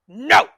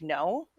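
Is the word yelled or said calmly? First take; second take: yelled; calmly. First: It is yelled loudly and aggressively. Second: It is said quietly and calmly.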